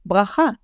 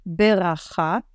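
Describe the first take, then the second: First: ברכה with b and r run together, bracha; blended bracha. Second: ברכה' with a vowel between b and r, be-racha; broken bracha. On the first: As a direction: say ברכה in one blended sound. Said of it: "it's easier to just say". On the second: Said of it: "Some people would say". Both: Shown as a demonstration.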